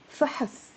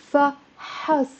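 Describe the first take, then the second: First: فحص as a single syllable, fahs; one syllable. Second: فحص split slowly as fa-HAS; two syllables. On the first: Teacher showing the noun for test, said as one syllable fahs. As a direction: say فحص with no vowel after the h. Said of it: "It's a one syllable word". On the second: Teacher adding the fatha, said as two syllables fa-has. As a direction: say فحص with an open a in both syllables. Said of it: "it becomes two syllables". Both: Shown as a demonstration.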